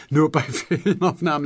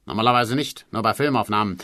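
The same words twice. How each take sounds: First: "Nur bei Filmaufnahmen" higher and louder, broken by a laugh; laughing repeat. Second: Said in the usual way. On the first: Acted. Producer echoes the writer's words, laughing out loud. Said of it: "lachte er wieder".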